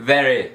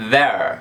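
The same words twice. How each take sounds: First: THERE wrongly said in two syllables, "theh-reh"; final E pronounced. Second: THERE as one syllable, ending on R; low-pitched "there", stopping on the R; silent final E. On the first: Teacher showing the mistake to avoid, final E voiced. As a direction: add a sounded E to the end of "there". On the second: Teacher giving the correct pronunciation, final E silent. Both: Shown as a demonstration. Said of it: "não vai pronunciar o E".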